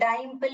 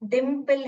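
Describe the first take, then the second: First: The first vowel is a long i. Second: The first vowel is a short i. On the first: The speaker calls it wrong. "ऐसे करेंगे ये डाइम्पल हो जाएगा" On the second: The speaker calls it right. "ये close syllable है इसलिए इक इक ई बोलेगा"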